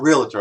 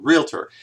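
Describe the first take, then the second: First: The word is said with an extra "it" sound. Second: The word is said without an extra "it" sound. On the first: The speaker calls it wrong. "with the it in there" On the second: The speaker calls it right. "there's no it"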